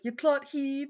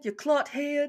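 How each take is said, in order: First: The last word has a long ee vowel. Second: The last word has a short eh vowel.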